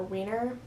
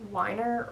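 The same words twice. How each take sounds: First: "Weiner" with a long ee, like "weener"; pronounced WEE-ner. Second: "Weiner" with a long i, like "whiner"; pronounced WHY-ner. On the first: Book reviewer offering the other surname reading, "Weiner" as WEE-ner. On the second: Book reviewer unsure of author's surname, "Weiner" said as WHY-ner. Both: Shown as a demonstration. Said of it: "I don't know if it's".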